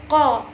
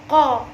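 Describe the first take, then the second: The two takes are said the same way.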